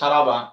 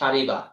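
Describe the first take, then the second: First: The middle vowel is an a sound. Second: The middle vowel is an i sound. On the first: The speaker calls it wrong. "শুদ্ধ হবে না ভুল হবে? ভুল হবে" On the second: The speaker calls it right. "মাঝির শব্দটা আইন কালিমাতে জের দিয়ে পড়তে হবে"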